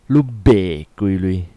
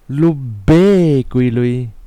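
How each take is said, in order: First: The word be carries the tone meaning sell. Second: The word be carries the tone meaning buy. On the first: The question asks how much it sells for. "You sell how much?" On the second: The question asks how much was paid to buy it. "You buy how much?"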